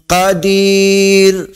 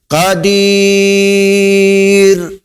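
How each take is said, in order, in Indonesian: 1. Vokal sebelum r akhir panjangnya sedang. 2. Vokal sebelum r akhir itu panjang. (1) "Kalau empat"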